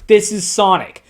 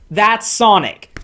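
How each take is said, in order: First: This hit firmly, Sonic falling at the end; stress on This. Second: That's hit firmly, falling into Sonic; stress on That's. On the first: Reacting to the comic, the streamer stresses This. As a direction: land hard on This. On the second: Reacting to the comic, the streamer stresses That's. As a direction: lean on That's, slow and sure. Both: Shown as a demonstration.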